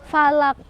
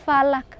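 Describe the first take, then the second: No difference in how they are said.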